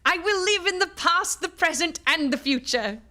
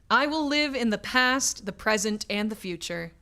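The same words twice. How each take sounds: First: It is read in a put-on Scrooge voice. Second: It is read in the narrator's normal voice.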